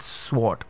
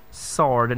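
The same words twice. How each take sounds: First: Sword with the w sounded, swort; wrong pronunciation shown. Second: Sword with a silent w, sord; correct pronunciation. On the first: Teacher showing the common mistake. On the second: Teacher modelling the correct word. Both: Shown as a demonstration. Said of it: "not sword".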